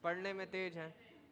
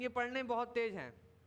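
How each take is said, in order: First: The praise is said in a sad tone. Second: The praise is said in an angry tone.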